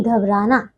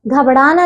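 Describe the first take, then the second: First: घबराना with a simple r, low and softer; correct pronunciation. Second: घबराना with a flapped ṛ: ghabṛaana; mispronunciation. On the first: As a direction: say घबराना with plain "r". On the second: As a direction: turn the r of घबराना into ड़. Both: Shown as a demonstration. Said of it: "घबराना नहीं".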